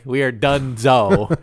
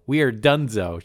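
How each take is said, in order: First: "dunzo" said slowly with the stress put on the wrong syllable; odd stress on dunzo. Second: Said in the usual way. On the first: She insists "dunzo" to him with the stress on the wrong syllable. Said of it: "putting the emphasis on the wrong syllable". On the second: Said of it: "She says".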